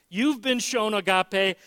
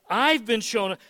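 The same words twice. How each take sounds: First: "You've" pushed out and held, pointing at the listener; "You've" stressed, steady pitch. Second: "I've" stressed, falling to close; "I've" stressed with a falling end. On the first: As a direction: lean on "You've" to point at them. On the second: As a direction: lean on "I've" to claim it for yourself. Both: Shown as a demonstration.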